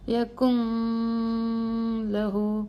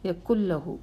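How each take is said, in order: First: The n is held as a nasal hum before l. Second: The n is dropped and merges into a doubled l. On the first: The speaker calls it wrong. "ഇനി ഒന്ന് മണിച്ച് നോക്കിയേ" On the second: The speaker calls it right. "അതിനെ അവോയ്ഡ് ചെയ്യണം"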